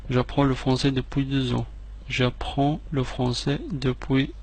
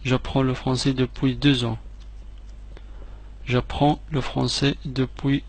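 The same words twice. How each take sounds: The two takes are said the same way.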